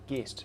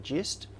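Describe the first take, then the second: First: The word starts with a hard g sound. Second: The word starts with a soft j sound. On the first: "based on git with a hard g, it probably should be a gist" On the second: "when I say it in my head, I say gist"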